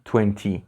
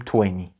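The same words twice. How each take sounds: First: The second t sound is clearly pronounced. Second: The second t sound is dropped entirely. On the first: The speaker calls it wrong. "من این رو بارها شنیدم از زبان بچه ها که میگن twenty" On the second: The speaker calls it right. "در واقع اون تی دوم خوانده نمیشه. در تلفظ ما میگیم twenty"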